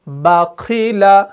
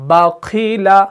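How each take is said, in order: No difference in how they are said.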